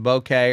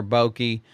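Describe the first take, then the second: First: "bokeh" pronounced to rhyme with okay; bokeh as BOH-kay. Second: "bokeh" pronounced BOH-kee, ending in ee. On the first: Teacher listing ways to say the term, "bokeh" as BOH-kay. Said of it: "it's pronounced bokeh or bokeh". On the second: Teacher listing another way to say it, "bokeh" as BOH-kee. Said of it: "I've heard it pronounced". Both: Shown as a demonstration.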